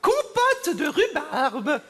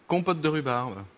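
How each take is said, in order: First: It is said in Marie-Thérèse's put-on voice. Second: It is said in his normal voice.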